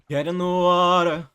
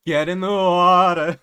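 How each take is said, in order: First: Loud, eerie command to get in; a lure with a threat in it; menacing siren. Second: Slow, drawn-out and much louder eerie command; louder, slower menacing siren. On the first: Bianca luring Argus into the water, eerie loud command. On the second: Bianca pressing Argus harder to enter water, slow loud eerie order. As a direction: push the threat harder, slowly. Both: Acted. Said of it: "That's kind of what she's like".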